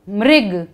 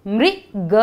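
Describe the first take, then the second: First: Said in the usual way. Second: मृग split as "mri, ga" with a gap; word sounded out. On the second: Shown as a demonstration. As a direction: sound out मृग piece by piece for learners. (मृग को तोड़कर बोलें: मृ, ग) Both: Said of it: "कौन सा शब्द है ये?".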